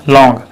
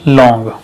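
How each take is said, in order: Both takes have the same delivery.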